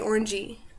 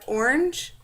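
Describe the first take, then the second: First: An extra vowel is added after the final consonant. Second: The word ends on its final consonant sound. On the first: "they have trouble ending a word with a consonant sound, so they always say orangey" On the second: "it's like orange"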